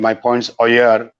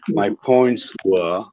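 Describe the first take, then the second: First: The last word sounds like 'oyer'. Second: The last word sounds like 'wer'. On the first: The speaker calls it wrong. "If I mispronounce this" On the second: The speaker calls it right. "I'm pronouncing were, not oyer"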